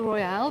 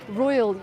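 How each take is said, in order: First: It is said with a Spanish pronunciation. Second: It is said with an English pronunciation. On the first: This is how locals name it. "I call it the Royale because that's what they call it over here" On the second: This is how English speakers name it. "You would call it"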